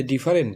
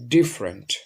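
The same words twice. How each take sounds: First: ডিফারেন্ট in three syllables, "di-fa-rent"; common pronunciation. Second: ডিফারেন্ট in two syllables, "DIF-rent", falling; correct pronunciation. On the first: Teacher quoting the common mistake, ডিফারেন্ট as "di-fa-rent". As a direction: keep the middle vowel in ডিফারেন্ট: "di-fa-rent". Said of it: "আমরা যদি ডিফারেন্ট বলি". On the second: Teacher giving the form to use, ডিফারেন্ট as "dif-rent". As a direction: drop the middle vowel of ডিফারেন্ট: "DIF-rent". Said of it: "সুতরাং আমরা এটা উচ্চারণ করব". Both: Shown as a demonstration.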